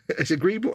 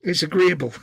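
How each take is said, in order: First: "agreeable" said high through a laugh, rising at the end; laughing repeat. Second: "agreeable" said loud and high with a falling end; pun on agreeable. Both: Shown as a demonstration. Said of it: "See what I did there?".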